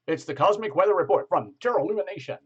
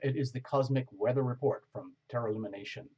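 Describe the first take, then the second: First: It is said in a casual, light tone. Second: It is said in a formal, serious tone.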